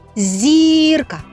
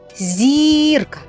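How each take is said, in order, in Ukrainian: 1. Перший приголосний м'який, перед звуком «і». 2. Перший приголосний м'який, перед звуком «і».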